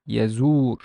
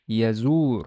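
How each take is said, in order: First: The word ends on the r consonant. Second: The same.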